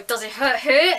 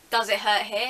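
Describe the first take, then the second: First: Louder, pressing repeat of the question; insist, asking yet again. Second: Said in the usual way. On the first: Retold or imitated. Dentist pressing the patient louder with a third ask.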